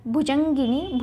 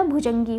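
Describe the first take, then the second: First: भुजंगिनी with an added ni; the mistaken long ending of भुजंगिनी; wrong form भुजंगिनी. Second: भुजंगी with no final ni; correct form भुजंगी. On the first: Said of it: "भुजंगिनी नहीं होता". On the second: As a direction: say भुजंगी ending in gee. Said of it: "भुजंगी होता है". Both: Shown as a demonstration.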